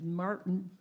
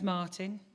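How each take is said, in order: First: The name is said in an American accent. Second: The name is said in a non-American accent.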